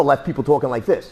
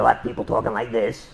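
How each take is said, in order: First: Lightly imitated throat injury, near usual pitch; a milder take on talking after a crushed windpipe; damaged throat, other version. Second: Low, subdued injured-throat voice; damaged throat. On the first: Instructor showing another choke victim's voice, mildly damaged throat. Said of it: "or left people talking like this". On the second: Instructor showing students a choke victim's voice, damaged throat. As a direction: talk lower and softer, as if the windpipe were hurt. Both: Shown as a demonstration.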